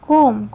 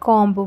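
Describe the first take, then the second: First: The word ends on m, without b. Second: The word ends with an audible b sound. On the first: The speaker calls it right. "ବିଟା silent ହେଇଯିବ" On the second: The speaker calls it wrong. "ଆପଣ କହୁଥିବେ କମ୍ବ ବୋଲି"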